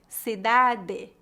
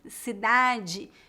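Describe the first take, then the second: First: The final syllable is said as a plain 'de'. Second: The final syllable is not said as a plain 'de'. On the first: "a pronúncia do T E e D E" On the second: "que seria a pronúncia mais comum no restante do Brasil"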